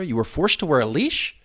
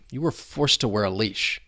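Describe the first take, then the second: First: The pitch rises at the end. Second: The pitch falls at the end. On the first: The asker does not know the answer. "that rising intonation. Uh, if we don't know the answer" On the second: The asker already knows the answer. "you could say it with that falling, like we know the answer"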